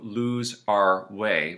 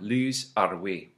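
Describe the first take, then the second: First: The R is not trilled. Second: The R is trilled.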